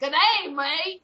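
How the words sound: It is said in an imitated Australian accent.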